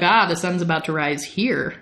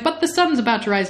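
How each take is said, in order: First: Unbothered acted reply, falling at the end; breezy dismissal. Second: Higher, quick acted protest; worried objection. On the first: Lestat brushes off Louis's sunrise worry, breezy and unhurried. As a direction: wave the worry away coolly. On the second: Louis protests about the sunrise, quick mock worry. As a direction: object in a hurry, mildly worried.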